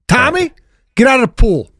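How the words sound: It is said hot and firmly.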